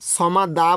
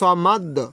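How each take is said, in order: First: The word ends with a final vowel sound. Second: The word ends on a stopped, echoing consonant. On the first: The speaker calls it wrong. "এখানে সমাদা বলা যাবে না" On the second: The speaker calls it right. "ওয়াকফ করার কারণে অর্থাৎ দম ফেলানোর কারণে এখানে সমাদ্য বলতে হবে"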